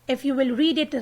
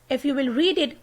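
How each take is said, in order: No difference in how they are said.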